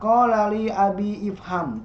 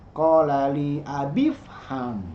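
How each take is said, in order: First: The vowel starting ifham is clearly pronounced. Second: The vowel is dropped and the words link. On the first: The speaker calls it wrong. "Jadi tidak dibaca" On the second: The speaker calls it right.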